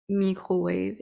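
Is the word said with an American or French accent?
French. The word is said with a French accent. The speaker calls it wrong.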